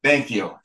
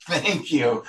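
First: Said in the usual way. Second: Chuckling thank you to the host for the save; laughing thanks. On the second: Real, not acted. Laughing at the host's good save.

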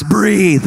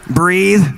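First: Slogan read again. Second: Slogan read. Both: Retold or imitated. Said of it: "That's in our house".

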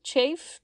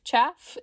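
First: "Chafe" with a long A, raised in pitch; trying a pronunciation. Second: "chaff" with a short A, rising at the end; trying a pronunciation. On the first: Host unsure of the word, testing "Chafe". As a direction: sound out "Chafe" to rhyme with safe. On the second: Host unsure of the word, testing "chaff". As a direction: sound out "chaff" to rhyme with staff. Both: Shown as a demonstration. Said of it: "I wish I knew how to say that word".

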